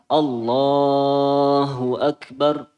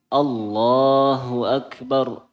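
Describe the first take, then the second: First: The 'la' vowel in Allah is stretched very long. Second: The 'la' vowel in Allah is held briefly. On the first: The speaker calls it wrong. "Kalau terlalu panjang akan jadi salah" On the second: The speaker calls it right. "lamnya mad tobi'i itu hanya dua harokat"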